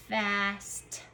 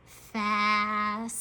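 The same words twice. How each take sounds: First: Said in the usual way. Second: FAST stretched, with a long hissed s; sounding out slowly. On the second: Shown as a demonstration. Teacher says it slow again, sounds drawn out. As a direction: hold each sound of FAST. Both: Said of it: "gonna say it slow again".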